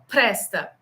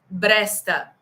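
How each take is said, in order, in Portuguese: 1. A palavra começa com um som de p aspirado. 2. A palavra começa com um som de b sonoro. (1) "pra gente é normal" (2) "Pro árabe é muito difícil"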